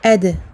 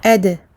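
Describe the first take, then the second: First: The d is released with a slight bounce. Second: The same.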